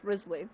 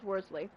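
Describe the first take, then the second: First: The name begins with a 'riz' sound. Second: The name begins with a 'wor' sound. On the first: The speaker calls it right. "it's pronounced Risley" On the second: The speaker calls it wrong. "I, honest to God, thought his name was pronounced Worsley"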